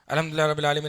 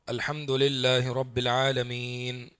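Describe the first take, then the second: First: It is recited quickly, running straight on. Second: It is recited slowly, with a pause after.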